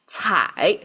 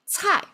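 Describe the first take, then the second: First: The syllable is said with a dipping tone. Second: The syllable is said with a falling tone. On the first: "third tone" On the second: "that's fallen tone"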